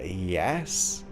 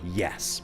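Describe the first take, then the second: First: The yes sounds unsure, after a hesitation. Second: The yes sounds firm, with energy behind it. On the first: The speaker doubts they can explain it. The speaker calls it wrong. "there's that hesitation there" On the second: The speaker is sure they can explain it. The speaker calls it right. "you've got to practice going through that third one and just go"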